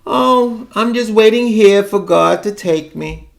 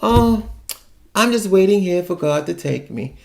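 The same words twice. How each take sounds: First: Put-on higher, mournful old aunt on the phone; mock sad old aunt. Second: Mock sad aunt. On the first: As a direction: sigh it out like a weary old aunt. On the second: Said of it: "She says that all the time".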